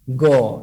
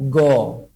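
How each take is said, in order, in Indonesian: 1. Huruf itu diucapkan dengan vokal 'o' yang membulat. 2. Huruf itu diucapkan dengan vokal 'o' yang membulat.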